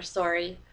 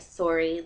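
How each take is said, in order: First: It is said with an American accent. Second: It is said with a Canadian accent.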